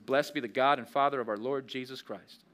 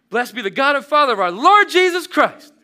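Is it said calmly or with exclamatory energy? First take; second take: calmly; exclamatory. First: It is said calmly, without exclamation. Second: It is said with exclamatory, emphatic energy.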